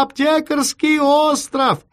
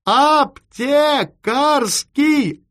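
First: High, drawn-out yell of "Аптекарский остров"; shouting. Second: "Аптекарский" yelled high in separate stretched syllables; shouted syllable by syllable. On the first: Chief giving the address by telephone, slow high shout of "Аптекарский остров". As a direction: shout "Аптекарский остров" as one running phrase. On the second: Chief repeating the address for a poor line, "Аптекарский" shouted in pieces. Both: A narrator's reading. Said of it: "и закричал ещё громче".

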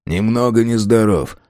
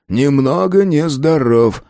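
First: Said in the usual way. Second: Slow, higher, lingering repeat; drawn-out musing. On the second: Acted. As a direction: stretch out each word sceptically. Repeats them again, mulling.

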